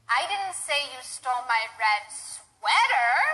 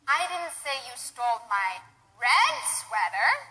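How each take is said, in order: First: The word sweater is stressed most strongly. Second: The word red is stressed most strongly. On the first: It was a different piece of clothing. "I said you stole my red dress, perhaps. Right? A different piece of clothing" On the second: It was a different color. "Perhaps I said you stole my green sweater"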